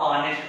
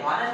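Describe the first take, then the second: First: The word starts with a vowel, no h. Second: The word starts with an audible h sound. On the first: The speaker calls it right. "H को नहीं बोला जाएगा तो हम इसको ऑनेस्ट पढ़ेंगे" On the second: The speaker calls it wrong. "हॉनेस्ट पढ़ेंगे तो ये गलत हो जाएगा"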